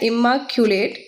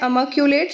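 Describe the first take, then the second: First: The word begins with an 'i' vowel sound. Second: The word begins with an 'a' vowel sound. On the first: This follows the spelling to help memory. "मैंने याद ऐसे किया है इम्माक्यूलेट" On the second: This is the actual pronunciation. "Pronunciation होता है अमाक्यूलेट"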